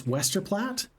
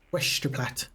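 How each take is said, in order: First: Said in the usual way. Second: Slurred Scottish accent, s turned to sh; Scottish impression with a shushing s; Sean Connery. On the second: Shown as a demonstration. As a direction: say "Westerplatte" as "Weshterplatte" in a Scottish accent. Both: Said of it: "with this sort of accent".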